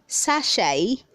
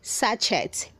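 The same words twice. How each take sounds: First: No T sound is heard at the end. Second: A T sound is heard at the end. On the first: The speaker calls it right. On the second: The speaker calls it wrong.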